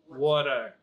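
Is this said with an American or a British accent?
American. It is said with an American accent. "America they say water"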